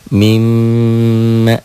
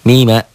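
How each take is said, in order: First: The m is doubled, held long and nasal. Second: The m is single, short and not nasal.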